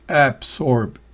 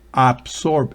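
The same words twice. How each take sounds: First: The first vowel is a short, weak sound. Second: The first vowel is a full open Spanish 'a'. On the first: The speaker calls it right. "es absorb" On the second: The speaker calls it wrong. "no es absorb"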